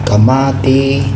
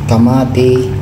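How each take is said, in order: The two takes are said the same way.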